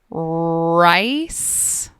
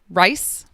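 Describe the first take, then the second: First: The word is drawn out very slowly. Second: The word is said at a normal speed. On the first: "then I will repeat each word very slowly" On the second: "I'm going to say each word normally first"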